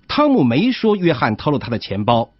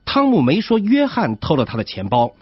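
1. 重音落在“汤姆”上。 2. 重音落在“约翰”上。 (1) "这种读法的意思是汤姆没这么说，是别人这么说" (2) "这种读法的意思是钱包不是约翰偷的，是别人偷的"

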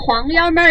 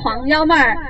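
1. 是用川普说的。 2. 是用标准普通话说的。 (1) "川普呢就是黄幺妹儿嘞" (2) "普通话就是黄幺妹儿"

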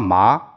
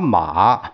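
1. 这个音读第二声。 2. 这个音读第三声。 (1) "一二三四声" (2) "一二三四声"

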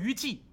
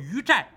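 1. 第二个音节读'ji'。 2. 第二个音节读'zhai'。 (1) "可千万不能念成于祭" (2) "但是要念成寨"

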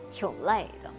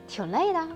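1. 句尾音调下降。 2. 句尾音调上升。

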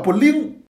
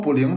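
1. 这个词说得很有力道、很有冲劲。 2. 这个词说得平平淡淡的。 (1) "得叫不灵。哎，这显得带劲解气。" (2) "不能说不灵"

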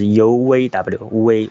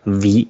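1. 这个音是张着嘴发的。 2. 这个音是咬住下嘴唇发的。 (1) "不能把那个口腔给放得那么开啊" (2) "一定要咬住嘴唇"

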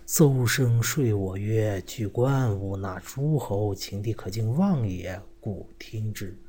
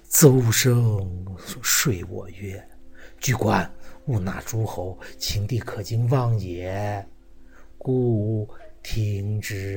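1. 平实、自然地读。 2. 做作、故作姿态地读。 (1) "这我们一般人这么说啊" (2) "还得拿着一点桥，装着一些样子，把自己的过错还要摘出去"

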